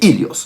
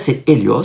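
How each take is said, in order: First: The word starts with an 'ee' vowel. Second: The word starts with an 'eh' vowel. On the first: This is the modern Greek pronunciation. "en grec moderne, le E état se prononce I et on dit Ilios" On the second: This is the ancient Greek pronunciation. "En grec ancien, c'est Hélios"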